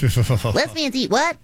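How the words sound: It is said in a Bart Simpson voice.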